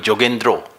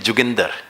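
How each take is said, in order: First: The name is said in a Bengali accent. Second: The name is said in a Punjabi accent. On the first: "Bengalis call me Jogendro" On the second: "the Punjabi pronunciation of my name is Juginder"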